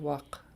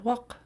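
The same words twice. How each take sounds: First: The vowel is said on a low pitch. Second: The vowel is said on a high pitch. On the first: "whereas without the high tone, it would be" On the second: "it's high tone, and your your the tone of your voice should go up a little bit, almost like a cheerful sound"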